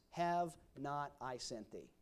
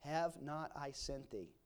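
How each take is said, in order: First: Slow down, weight on Have; slow rhetorical question. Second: Slow down, lean on Have; slow rhetorical question. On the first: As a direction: Have said slowly and firmly as a rebuke. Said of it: "and he said". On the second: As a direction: Have said slowly, softer, as a gentle reminder. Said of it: "and he says". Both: Acted.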